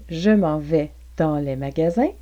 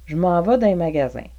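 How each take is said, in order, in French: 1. « Dans les » se dit en entier, en deux mots. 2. « Dans les » se contracte en une syllabe « din ».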